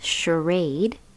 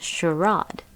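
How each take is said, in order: First: The word is said the non-British way. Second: The word is said the British way.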